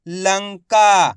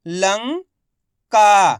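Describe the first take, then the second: First: Lanka joined, loud long "का" falling; blended whole word. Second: Lanka in two parts, "लं" rising, pause, loud "का"; very slowly sound out Lanka piece by piece; split into syllables. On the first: Teacher showing learners the result, Lanka blended together. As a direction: say Lanka as one slow unbroken word. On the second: Teacher breaking Lanka down for learners, syllable by syllable. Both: Shown as a demonstration. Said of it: "इनको आपस में मिला के पढ़ना है".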